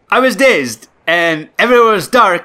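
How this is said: It is spoken in an attempted Nigerian accent.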